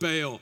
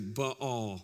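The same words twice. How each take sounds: First: It uses the Southern American pronunciation. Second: It uses a Hebrew-like pronunciation. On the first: "I've always heard my entire life that this is called Baal" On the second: "a more accurate pronunciation with the Hebrew, you could say Baal"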